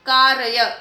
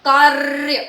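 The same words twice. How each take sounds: First: कार्य said as three syllables, "kaa-ra-ya"; wrong split pronunciation. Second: कार्य as loud "kaarrr-ya", long trill; correct rolled r. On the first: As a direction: put a full vowel after the r in कार्य. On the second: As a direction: roll the r of कार्य straight into "ya", no vowel between. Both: Shown as a demonstration. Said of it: "मगर हमें क्या करना है".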